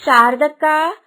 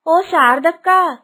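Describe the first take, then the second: First: Loud call with a rising end. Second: Slow, drawn-out loud call; long loud call. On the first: Kusuma calling her neighbour from outside, loud call. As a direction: call over to the neighbour's house. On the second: Kusuma calling her neighbour again, slow drawn-out shout. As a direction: stretch the call out to reach next door. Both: Acted.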